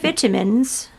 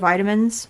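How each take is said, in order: First: It is said with a British English pronunciation. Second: It is said with a non-British, everyday pronunciation. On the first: This imitates how an English TV host says it. "Had my vitamins instead of" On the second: This is how the speaker normally says it. "instead of vitamins"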